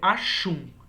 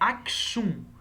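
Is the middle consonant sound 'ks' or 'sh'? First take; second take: sh; ks. First: The middle sounds like 'sh'. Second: The middle sounds like 'ks'. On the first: "Mas a pronúncia pode ser Ashum, tá? Como se fosse um X" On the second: "a grafia deste reino é Aksum"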